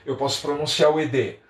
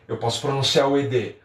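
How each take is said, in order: Both takes have the same delivery.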